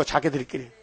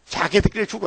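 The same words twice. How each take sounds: First: Quiet echo. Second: Said in the usual way. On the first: Acted. Quiet echo of repeated phrase.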